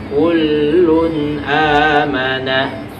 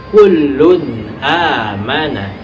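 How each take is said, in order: No difference in how they are said.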